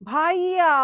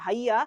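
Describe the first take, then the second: First: The word ends with a long stretched vowel. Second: The word is said short and plain. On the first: A special, affectionate way some girls address him. "সে এইভাবে বলবে ভাইয়া। ভাইয়া বলার পর সে literally চার আলিফের একটা টান দিবে" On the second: An ordinary way of addressing an older brother figure. "আমরা বলবো যখন ভাইয়া"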